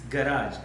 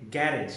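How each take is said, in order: First: Garage said as guh-RAAZH, stress on the end; garage with weak first syllable and long stressed "-RAAJ"; corrected garage pronunciation. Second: Garage said as GARR-idge, stress up front; garage with first-syllable stress and short "-idge" ending; mispronounced garage. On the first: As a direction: stretch the second syllable of garage, long "aah". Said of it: "There's no such word called garage". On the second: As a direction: say garage to rhyme with carriage. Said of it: "pronouncing it in a wrong manner". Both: Shown as a demonstration.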